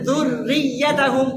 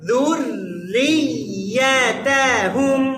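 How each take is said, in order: First: The word is said quickly and rushed. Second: The word is said slowly and evenly. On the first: The speaker calls it wrong. "তার মানে আপনি অনেক তাড়াহুড়ো করছেন।" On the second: The speaker calls it right. "আমার দিকে দেখেন"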